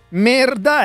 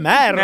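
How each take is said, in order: First: The stressed vowel is said narrow. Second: The stressed vowel is said wide. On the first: The speaker calls it wrong. "Non è merda" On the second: The speaker calls it right. "è merda"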